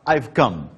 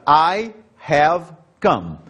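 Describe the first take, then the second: First: The auxiliary is contracted and joined to 'I'. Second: The auxiliary 'have' is said as a full word. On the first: "na fala rápida, a gente fala I've come" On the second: "eu vou usar I have come"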